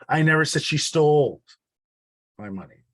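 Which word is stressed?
stole. The word 'stole' carries the main stress. It was given, not taken. "It wasn't stolen, it was given"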